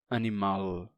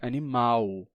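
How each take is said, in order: First: The word ends with a clear L sound. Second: The word ends with a U-like vowel sound. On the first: This is the older pronunciation no longer used in Brazil. "A gente não diz mais" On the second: This is the current Brazilian pronunciation. "e sim; se pronuncia como U"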